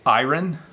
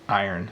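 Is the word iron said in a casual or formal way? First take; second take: formal; casual. First: The word is said in a more formal way. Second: The word is said in a casual everyday way. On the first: "probably more formal pronunciation" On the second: "but I say iron"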